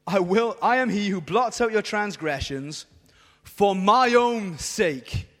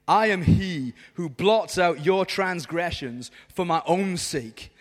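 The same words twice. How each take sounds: First: "for my own sake" drawn out slowly and louder; pause, then lean hard on "my own sake"; stress on "my own sake". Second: Slow, lower-pitched reading of God's words; solemn scripture reading. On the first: Shown as a demonstration. Preacher repeats verse for the crowd, emphasizing "my own sake". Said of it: "let me just emphasize the words". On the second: Acted. Preacher reads God's promise to the crowd, solemnly. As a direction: read it slowly and weightily. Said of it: "I'm gonna read it to you".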